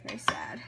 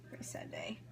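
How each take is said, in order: First: Mock sad. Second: A lower, softer whisper of fake grief; mock sad whisper. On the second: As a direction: breathe it out as a joke lament over onion tears. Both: Onion tears, mock grief.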